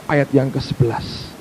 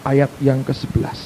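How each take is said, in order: Both takes have the same delivery.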